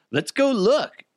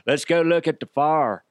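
First: High, excited put-on voice; eager mock suggestion. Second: Higher, hammed-up neighbor voice; typical nosy neighbor. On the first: Husband eager to go see the neighborhood fire, mock excited. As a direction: pitch it up like an eager onlooker. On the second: Typical neighbor rallying others to the fire, hammed-up gawker voice. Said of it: "like those typical neighbors that are like".

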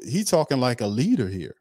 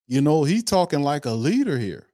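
First: Said in the usual way. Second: "leader" stressed, pitched higher; emphatic repeat. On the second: Shown as a demonstration. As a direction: lean hard on "leader" the second time.

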